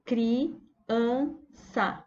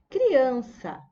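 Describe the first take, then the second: First: "Criança" split CRI, AN, ÇA with pauses; syllable by syllable. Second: Said in the usual way. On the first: Shown as a demonstration. Teacher counting syllables for the class, "Criança" broken into three. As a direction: say "Criança" slowly in three separate beats. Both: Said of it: "Quantas vezes eu abro a boca".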